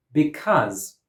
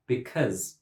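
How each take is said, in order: First: "Because" with an open "ah" in the second syllable, be-CAHZ; open-vowel variant. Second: "because" with a short "uh" in the second syllable, be-CUZ; schwa variant. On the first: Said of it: "Because or because". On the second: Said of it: "has a schwa". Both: Shown as a demonstration.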